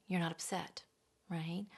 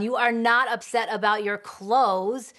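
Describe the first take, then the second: First: Quiet denial. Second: Loud, stress on not, dismissive; denying. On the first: Shown as a demonstration. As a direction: say it almost under the breath. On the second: Retold or imitated. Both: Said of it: "So we deny the feeling".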